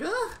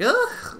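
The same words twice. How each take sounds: First: High, squeaky groan of disgust; a cringing high-pitched ugh at the fan service; short squeaked ugh of distaste. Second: Loud, high, squeaky ugh; a cringing ugh, pushed harder this time; sharp high-pitched groan of distaste; louder disgusted groan. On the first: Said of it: "there's a couple things where I'm like". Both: Retold or imitated.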